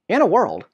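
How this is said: It is said in a light, cheerful voice. "it just sounds goofy when you say it, you know, cheerfully"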